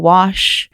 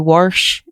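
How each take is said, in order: First: No r sound comes before the sh. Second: An r sound comes before the sh. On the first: This is the usual way to say it. "instead of wash" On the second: This is how an older Appalachian relative said it. "he would say warsh"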